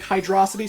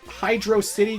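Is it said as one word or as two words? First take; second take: one word; two words. First: It is said as one word, like velocity. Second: It is said as two separate words. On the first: "they pronounce it like hydrosity, sort of like velocity" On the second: "I personally think Hydro City just sounds right"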